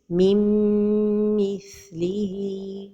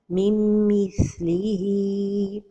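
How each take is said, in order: First: The nasal merge is held with no n. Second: The nasal merge is clipped with no hold. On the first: The speaker calls it right. "the right pronunciation is mim mithlihi without pronouncing noon" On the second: The speaker calls it wrong. "without a time for the ghunna"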